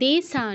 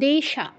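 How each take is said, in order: First: The s-sound is a hissing dental s. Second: The s-sound is a hushing palatal sh. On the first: The speaker calls it wrong. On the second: The speaker calls it right.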